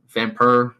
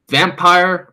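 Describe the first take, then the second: First: It is said with a French accent. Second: It is said with a plain English accent.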